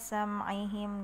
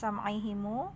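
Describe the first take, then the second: First: The word ends on a bare m consonant. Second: The word ends with an added short u vowel. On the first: The speaker calls it right. "kalau mau waqaf maka dibaca sukun aja" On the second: The speaker calls it wrong. "bukan sam'ihimu"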